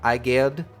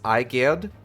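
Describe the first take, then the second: The two takes are said the same way.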